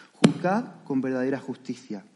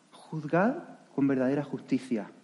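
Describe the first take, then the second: No difference in how they are said.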